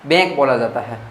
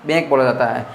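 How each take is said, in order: Both takes have the same delivery.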